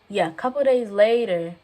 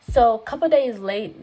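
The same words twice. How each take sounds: First: Said in the usual way. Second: A couple days late, said with the word late cut short by mistake; slip of the tongue. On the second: Real, not acted. Telling her story, she trips over the word. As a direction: misspeak late for later, then stop.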